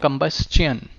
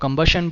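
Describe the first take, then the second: First: The ending is said as 'chun'. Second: The ending is not said as 'chun'. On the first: The speaker calls it right. "it will be your sound ending in chun" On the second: The speaker calls it wrong. "हम इसको कंबशन बोलते हैं but it will be"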